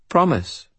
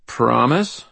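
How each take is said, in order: First: Put-on "Promise" high, falling, in a little-girl voice; solemn child's reply. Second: "Promise?" pitched up with a rising end; questioning. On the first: Child gives the wizard her word, solemn fall on "Promise". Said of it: "the child said solemnly". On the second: Wizard frowns at the child, questioning rise on "Promise?". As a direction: lift "Promise?" into a higher question. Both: A narrator's reading.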